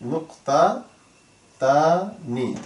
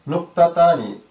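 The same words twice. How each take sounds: First: Very slow, with long gaps between syllables. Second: Said in the usual way. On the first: Shown as a demonstration. Teacher introducing the Arabic for colon, slowly syllable by syllable. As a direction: spell out "নুক্তাতানি" by ear, one piece at a time.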